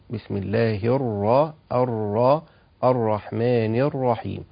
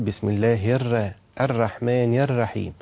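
First: The r sounds are full and heavy. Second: The r sounds are thin and light. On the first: The speaker calls it right. "نحاول أن احنا نفخم الراء تفخيم جيد" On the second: The speaker calls it wrong. "بيرقق الراء بتاعة الرحمن الرحيم"

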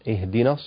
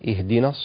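Both takes have the same delivery.

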